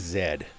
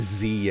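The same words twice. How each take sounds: First: The letter is pronounced 'zed'. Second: The letter is pronounced 'zee'. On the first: This is how Canadians say it. "We say Z. Because that's just way cooler" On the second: This is how others say it. "we don't say Z in Canada"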